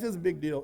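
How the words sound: It sounds flat and unimpressed.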